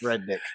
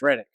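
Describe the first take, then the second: First: The name is said as two separate words. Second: The name is said quickly as one word. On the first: "if you say it like it's phonetically pronounced" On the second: "If you say it fast together, it's Reddick"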